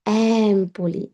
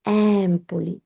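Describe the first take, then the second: Both takes have the same delivery.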